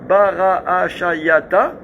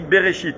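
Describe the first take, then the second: First: Every letter is voiced, giving five syllables. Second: Silent letters are skipped, giving three syllables. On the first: This is the word as it is written. "Il y a écrit" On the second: This is the word as it is read aloud. "moi je dis Bereshit. J'ai sauté trois syllabes, enfin deux syllabes sur cinq"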